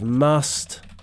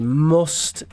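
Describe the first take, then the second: First: The vowel is open and unrounded, like uh. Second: The vowel is rounded, like in look. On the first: "instead of must" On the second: "in Northern English, they will say must"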